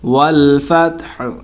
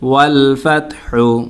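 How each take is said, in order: First: The final H is stopped with no vowel. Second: The final H carries a short u vowel. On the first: "ওয়াকফ করলে হবে ... হাটা সাকিন হয়ে যাবে" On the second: "হা পেশ হু"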